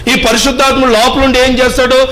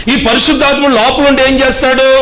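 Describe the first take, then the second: The two takes are said the same way.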